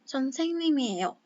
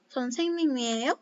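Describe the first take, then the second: First: The pitch goes down at the end. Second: The pitch goes up at the end. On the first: It states that someone is a teacher. "Kalau misalkan pernyataan kan 선생님이에요. Agak ke bawah gitu kan" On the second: It asks whether the listener is a teacher. "ubah ke dalam intonasi yang uh, tinggi"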